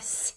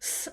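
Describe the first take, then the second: First: The s is soft, higher and palatalized. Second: The s is hard, lower and plain.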